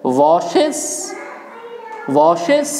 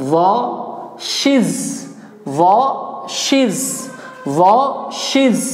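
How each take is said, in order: First: Washes as "wa-shes", short e and final s; common mispronunciation. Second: Washes split as "waa... shiz", drawn out; correct pronunciation. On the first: Teacher showing what learners usually hear, common mispronunciation washes as "wa-shes". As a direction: say washes ending in hissed "shes". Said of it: "यही हम सुने भी हैं". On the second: Teacher drilling learners, correct pronunciation washes as "waa-shiz". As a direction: say washes in two parts, ending in buzzing "shiz". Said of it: "इसका correct". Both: Shown as a demonstration.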